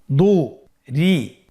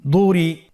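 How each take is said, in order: First: "দু, রি" slowly as two separate sounds; syllables apart. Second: Louder "দুরি", run together; syllables joined. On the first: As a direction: split "দু, রি" with a clear pause. ("দু, রি" ভেঙে ভেঙে ধীরে) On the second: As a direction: blend "দুরি" without a break. ("দুরি" একসাথে মিলিয়ে) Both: Shown as a demonstration. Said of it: "এভাবেও পড়তে পারেন".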